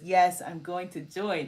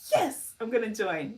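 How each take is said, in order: First: It is read in a flat, plain tone. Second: It is said in a cheerful, energetic tone.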